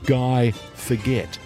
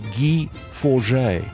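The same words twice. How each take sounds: First: The name is said with English pronunciation. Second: The name is said with French pronunciation. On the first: The speaker calls it wrong. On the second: The speaker calls it right.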